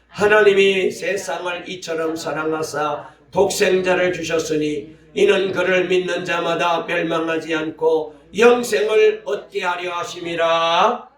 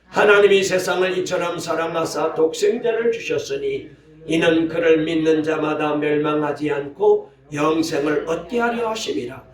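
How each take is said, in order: First: It is read at a slower pace. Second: It is read loudly at a faster pace.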